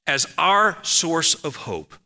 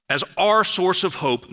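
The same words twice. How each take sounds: First: As our source of hope, spoken slowly; slowed sermon emphasis; slow deliberate. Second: Our lifted high and leaned on; sermon emphasis, our lifted high; stress on our. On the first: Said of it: "first take, slow". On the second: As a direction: hit the word our. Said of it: "repeated key phrase, higher". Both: Real, not acted.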